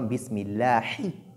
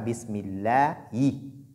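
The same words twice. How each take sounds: First: A clear H sound is pronounced before the end. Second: The H sound is replaced by a Y sound. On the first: The speaker calls it right. "mais plutôt Bismillahi" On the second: The speaker calls it wrong. "On ne dit pas Bismillahi"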